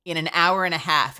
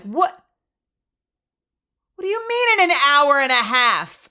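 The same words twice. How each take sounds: First: Said in the usual way. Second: High, loud incredulous wail; hammed-up indignant outburst; mock outraged disbelief. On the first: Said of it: "And she's like". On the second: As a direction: shout it back in exaggerated disbelief. Acted disbelief at long wait.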